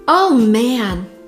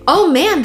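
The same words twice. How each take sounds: First: It sounds annoyed and frustrated. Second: It sounds happy and delighted. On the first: Something bad has happened. "this is unpleasant, this is frustration" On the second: Something great has happened. "Completely different emotion, same phrase"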